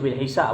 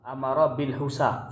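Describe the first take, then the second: First: The last word has an i vowel first. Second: The last word has a u vowel first. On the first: "Boleh dibaca bil hisab pun boleh" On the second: "ataupun dibaca dengan ... amara bil husab pun boleh"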